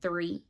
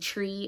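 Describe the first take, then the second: First: The word begins with a th sound. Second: The word begins with a plain t sound. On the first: The speaker calls it wrong. "instead of three" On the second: The speaker calls it right. "for not saying tree"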